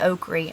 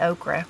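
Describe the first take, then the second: First: The word is said with an Appalachian pronunciation. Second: The word is said with a standard pronunciation. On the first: "I say okra ... That's my Appalachian accent there coming out" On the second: "I don't say okra"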